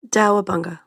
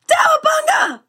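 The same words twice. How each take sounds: First: It is said calmly, without shouting. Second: It is said loudly, almost screamed.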